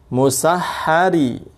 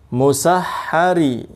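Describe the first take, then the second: Both takes have the same delivery.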